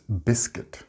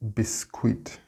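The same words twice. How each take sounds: First: The U and I are not sounded separately. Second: The U and I are sounded separately. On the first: The speaker calls it right. "It's biscuit" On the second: The speaker calls it wrong. "We do not pronounce the U and I separately. It's not biscuit"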